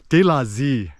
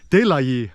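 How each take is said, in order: First: The last word begins with a z sound. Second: The last word begins with a y sound. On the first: This is the southern way. "people in the south in Saigon, Ho Chi Minh City, will say" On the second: This is the standard northern way. "you're supposed to say"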